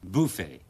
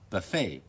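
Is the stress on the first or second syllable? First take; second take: first; second. First: The stress is on the first syllable. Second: The stress is on the second syllable. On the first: "第二個詞咧就係buffet" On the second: "美語咧就係mirage、buffet"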